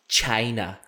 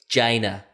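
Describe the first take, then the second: First: The word begins with a ch sound. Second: The word begins with a soft j sound. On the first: "not China" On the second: "that's a soft G, like the second part of vagina"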